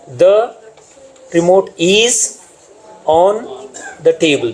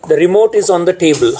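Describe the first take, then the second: First: "The", "is", "on" each drawn out slowly, with pauses between; slow word-by-word stress on "The", "is" and "on"; picking out words. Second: Said in the usual way. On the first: Shown as a demonstration. Teacher showing trainees the structural words, "The", "is", "on" stretched and set apart.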